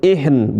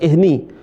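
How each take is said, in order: First: The word ends on a bare n sound. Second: The word ends with a vowel after n. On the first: The speaker calls it right. "Nunnya jadi sukun" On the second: The speaker calls it wrong. "bukan ihni"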